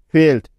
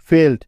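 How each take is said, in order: Both takes have the same delivery.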